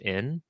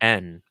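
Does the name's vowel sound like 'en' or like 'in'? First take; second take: in; en. First: The vowel sounds like the 'i' in 'inn'. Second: The vowel sounds like the 'e' in 'end'. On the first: The speaker calls it wrong. "I pronounce um, like I N and E N the same. So I want to call you N" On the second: The speaker calls it right. "but I feel like it's N, right?"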